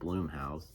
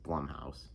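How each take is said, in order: First: The first vowel is long, like 'boom'. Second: The first vowel is short, like 'bum'. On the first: This is how it used to be said. The speaker calls it wrong. "I actually used to pronounce it" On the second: This is the real pronunciation. The speaker calls it right. "it was actually pronounced"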